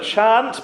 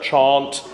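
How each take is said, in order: First: "chant" with a short flat a, as in cat. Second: "chant" with an open ah, as chahnt; long ah. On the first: Choir leader showing the vowel to avoid, short a. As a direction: say "chant" to rhyme with ant. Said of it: "instead of chant". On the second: Choir leader showing the preferred vowel, ah sound. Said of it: "with an ah sound". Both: Shown as a demonstration.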